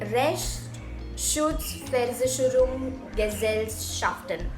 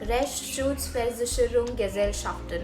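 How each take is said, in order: First: The word is said slowly, piece by piece. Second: The word is said quickly in one go.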